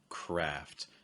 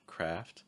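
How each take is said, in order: First: The pitch falls on the word. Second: The pitch rises slightly on the word. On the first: "falling intonation" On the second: "a slight rise"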